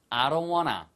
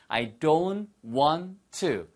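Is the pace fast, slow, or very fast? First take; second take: very fast; slow. First: It is said very fast, words blended. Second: It is said at a slow, careful pace.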